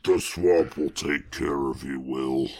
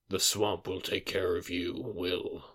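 First: It is said in a put-on Swamp Thing voice. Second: It is said in a plain, normal voice.

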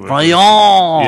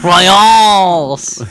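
First: The final S sound is silent. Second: The final S sound is pronounced. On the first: The speaker calls it right. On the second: The speaker calls it wrong.

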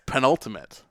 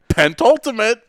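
First: The word has no t sound after pen. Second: The word has a t sound after pen. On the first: The speaker calls it right. "There's no T on that" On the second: The speaker calls it wrong. "You said pentultimate"

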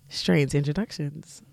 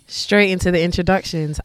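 First: It is said in a sensual voice. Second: It is said in a plain voice.

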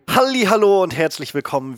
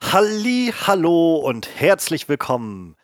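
First: The greeting sounds natural and relaxed. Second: The greeting sounds affected and overdone.

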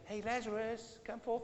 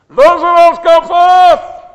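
First: It is said quietly and casually. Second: It is said loudly, like a shout.

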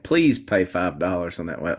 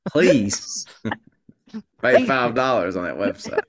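First: The sentence is said with plain, light emphasis. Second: The sentence is said with strong, heavy emphasis. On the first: "Let me say that again" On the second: "Let me put the right emphasis on the right syllables here"

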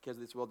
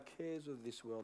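First: The phrase is rattled off quickly and mechanically. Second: The phrase is said slowly and thoughtfully. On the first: The words are recited from memory without reflection. The speaker calls it wrong. "that's reading it with your head" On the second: The words are pondered and applied personally. The speaker calls it right. "Or I can stop and go"

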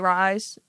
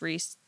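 First: The vowel sounds like the one in 'rice'. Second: The vowel sounds like the one in 'piece'. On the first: The speaker calls it wrong. "A lot of people say Rise" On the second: The speaker calls it right. "but it's Reese"

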